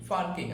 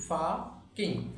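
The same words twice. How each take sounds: First: "পার্কিং" with the r sounded before k; R pronounced. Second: "ফাকিং" as slow faa-king with no r; silent R. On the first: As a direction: say "পার্কিং" as par-king, r audible. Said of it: "আমরা পার্কিং বলে থাকি". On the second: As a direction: drop the r in "ফাকিং", long open a. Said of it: "আর উচ্চারণটা না করি". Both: Shown as a demonstration.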